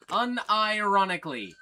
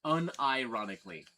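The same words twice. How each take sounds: First: "Unironically" said louder and higher; emphatic repeat. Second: Said in the usual way. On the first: Real, not acted. Insisting to chat the trolls are real, emphatic repeat. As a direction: lean hard on "Unironically".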